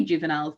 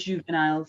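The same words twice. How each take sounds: First: "juveniles" said the English way, JOO-və-niles; plain English "juveniles", no French sounds; anglicized pronunciation. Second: "juveniles" said French-style, with a softer first sound; supposedly correct pronunciation. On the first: Admitting her own habit, anglicized "juveniles". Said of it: "I just say juveniles". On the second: Guessing at the proper name, French-style "juveniles". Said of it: "it probably is juveniles". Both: Shown as a demonstration.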